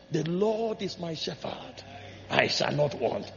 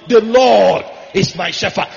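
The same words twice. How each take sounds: First: Slow and soft, much quieter, savoring each word; David humbly confessing trust to God, softly; hushed reverent recitation. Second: Slow and much louder, declared outright; loud proclamation. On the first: Preacher voicing David's psalm to God, slow and hushed. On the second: Preacher voicing David's psalm to God, proclaimed loudly and slowly. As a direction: proclaim it like a king bowing to God. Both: Pretend.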